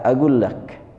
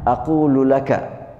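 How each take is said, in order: First: It is the contracted Saudi form with a g. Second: It is the full classical Arabic form.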